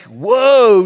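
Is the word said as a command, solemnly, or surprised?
surprised. It is said with casual surprise. It expresses amazement. The speaker calls it wrong. "not like whoa, dude"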